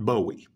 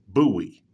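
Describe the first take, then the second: First: The name begins with a 'boh' sound. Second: The name begins with a 'boo' sound. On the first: The speaker calls it wrong. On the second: The speaker calls it right. "that is the proper way to pronounce the man's name"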